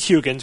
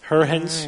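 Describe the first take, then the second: First: The name is pronounced with an American-style pronunciation. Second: The name is pronounced with a Dutch-style pronunciation. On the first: "We'll Americanize it for this show" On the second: "if the internet is correct, it's Huygens"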